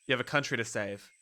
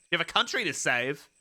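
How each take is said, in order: First: Low, subdued story narration; low narrator reading. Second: COUNTRY lifted, line turned into a question; questioning repeat. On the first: Game narrator urging the sleeper up, low and level. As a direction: read it low and matter-of-fact, falling at the end. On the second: Player echoes the narrator's line, questioning COUNTRY. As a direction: repeat it querying, pitch up on COUNTRY. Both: Acted.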